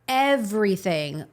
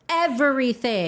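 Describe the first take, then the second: First: It is said calmly, without extra emphasis. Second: It is said emphatically, with strong force.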